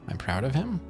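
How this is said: The voice rises at the end like a question. It is asked as a question.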